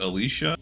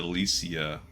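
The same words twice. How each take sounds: First: The name is said with three syllables. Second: The name is said with four syllables. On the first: "Three syllables" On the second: "four syllables"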